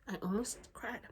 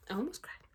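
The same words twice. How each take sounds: First: Whispered confession; hushed, confiding whisper. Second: Said in the usual way. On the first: Shown as a demonstration. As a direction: drop it to a whisper. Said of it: "repeat whispered". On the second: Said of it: "repeat, plain then whispered".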